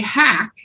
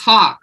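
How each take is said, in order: First: The vowel sounds like the one in 'cat'. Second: The vowel sounds like the one in 'saw'. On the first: The speaker calls it wrong. "They would say hack" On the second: The speaker calls it right. "It's hawk, like the bird"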